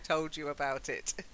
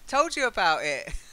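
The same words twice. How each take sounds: First: The T sounds in 'about it' are pronounced. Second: The T sounds in 'about it' are dropped. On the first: The speaker calls it right. "It's much better to say" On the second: The speaker calls it wrong. "they do drop the T"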